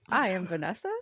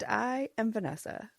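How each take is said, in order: First: The voice rises at the end, like a question. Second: The voice falls at the end, like a statement. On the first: The speaker calls it wrong. "I always say it like a question" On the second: The speaker calls it right. "I wanted to say it with a with a period this time"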